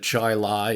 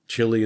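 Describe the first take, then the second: First: The first syllable sounds like 'chai'. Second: The first syllable sounds like 'chee'. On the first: The speaker calls it right. "instead of chai lai" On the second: The speaker calls it wrong. "chili instead of"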